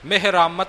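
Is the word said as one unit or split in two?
one unit. The word is said joined as one unit. The speaker calls it right. "ਪਾਠ ਇਕੱਠਾ ਹੈ, ਨਿਖੇੜਨਾ ਨਹੀਂ"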